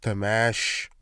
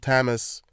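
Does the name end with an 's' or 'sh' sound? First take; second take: sh; s. First: The name ends with an 'sh' sound. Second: The name ends with a plain 's' sound. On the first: The speaker calls it right. "It's Tamash. With a shh at the end" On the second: The speaker calls it wrong. "You motherfuckers keep mispronouncing his name, calling him Tamas"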